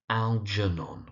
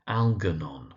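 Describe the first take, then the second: First: The g is said as a soft j. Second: The g is said as a hard g. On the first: The speaker calls it right. "with a soft j sound" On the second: The speaker calls it wrong. "the common mispronunciation"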